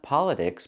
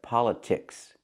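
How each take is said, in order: First: The T sounds like a quick D. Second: The T is a clear, real T. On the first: The speaker calls it wrong. "cannot be pronounced with a fast D. Not politics" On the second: The speaker calls it right. "but politics. ... Use a real T"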